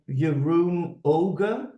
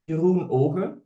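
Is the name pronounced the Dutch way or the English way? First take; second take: English; Dutch. First: The name is pronounced with English sounds. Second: The name is pronounced with Dutch sounds. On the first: This is how it is said for international listeners. "I typically pronounce it in the English way" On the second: This is how it is said in the native language. "So in Dutch, it, that's my mother tongue. It would be"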